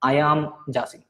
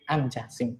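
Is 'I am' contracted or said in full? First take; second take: full; contracted. First: Both words 'I am' are said in full. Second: 'I am' is run together as 'I'm'. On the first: The speaker calls it wrong. "എല്ലാവരും പറയുന്നതാണ് ഐ ആം" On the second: The speaker calls it right. "ഐ ആം എന്ന് പറയുന്നതിന് പകരം ആം എന്ന് പറയണം"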